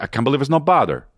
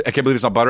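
First: Quick mock slogan with "bother"; mock Fabio accent. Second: Said in the usual way. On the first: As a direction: drop the t and r, say "bother" like a thick accent. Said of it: "and they were like". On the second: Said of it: "Remember it was".

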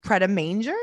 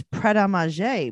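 First: Pret a Manger as "pred-uh-MAIN-jer", questioning; anglicized pronunciation. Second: Pret a Manger as "pred-uh-mah-ZHAY"; French-style pronunciation. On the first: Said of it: "That is not what she says". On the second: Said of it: "I thought it was". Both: Shown as a demonstration.

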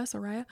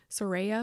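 First: "Soraya" with middle syllable like "rye"; "Soraya" with an EYE vowel in the middle; pronunciation variant. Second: "Soraya" with middle syllable like "ray"; "Soraya" with an AY vowel in the middle; pronunciation variant. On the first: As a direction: say "Soraya" as so-RYE-uh, softly questioning. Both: Shown as a demonstration. Trying two pronunciations of name.

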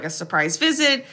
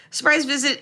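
First: Said in the usual way. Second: Surprise visit, with Surprise pitched high and stretched; sarcastic stress. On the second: Shown as a demonstration. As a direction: lift the word Surprise way up, air-quote style. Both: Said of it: "A K A".

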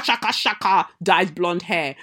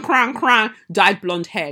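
First: Said in the usual way. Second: Cran, cran said slow and louder, correcting herself; stress on cran. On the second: Shown as a demonstration. Correcting the insult to the woman: slow, loud stress on cran. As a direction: lean hard on cran. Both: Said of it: "your cran".

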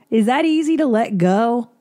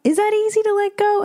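First: Said in the usual way. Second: Incredulous, much higher. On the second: Real, not acted. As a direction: pitch jumps up in disbelief.

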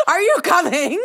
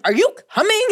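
First: Asked again through laughter; laughing. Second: High, loud impatient call. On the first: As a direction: laugh while calling it out. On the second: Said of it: "And I'm like". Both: Retold or imitated.

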